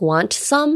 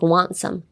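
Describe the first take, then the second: First: The t at the end of want is pronounced. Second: The t at the end of want is silent. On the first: The speaker calls it wrong. "You wouldn't say like" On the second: The speaker calls it right. "you'd be like"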